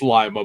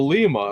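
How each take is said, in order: First: It uses the local Ohio pronunciation of the name. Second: It uses the Peruvian pronunciation of the name. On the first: This is how locals in Ohio say it. The speaker calls it right. "it's Lima" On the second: This is how the city in Peru is said. The speaker calls it wrong. "that's the pronunciation of it in Peru"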